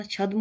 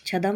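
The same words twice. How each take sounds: First: Said in the usual way. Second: छदम with a vowel before m, chha-dam; wrong pronunciation. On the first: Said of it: "होता है". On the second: Shown as a demonstration. Teacher rejecting a word, छदम said chha-dam. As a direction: split the d and m in छदम. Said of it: "नहीं होता".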